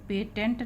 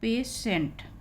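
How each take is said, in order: First: The middle consonant is a 't' sound. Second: The middle consonant is an 'sh' sound. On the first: The speaker calls it wrong. "पेटेंट नहीं है" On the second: The speaker calls it right. "ये पेशेंट"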